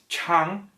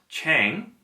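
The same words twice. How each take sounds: First: The vowel is an open 'ah' sound. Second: The vowel is like the 'a' in 'rang'. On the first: The speaker calls it right. "The correct vowel sound is ah" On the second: The speaker calls it wrong. "not a long A like rang"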